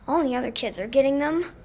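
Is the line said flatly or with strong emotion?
strong emotion. It is said with more emotion and pitch range.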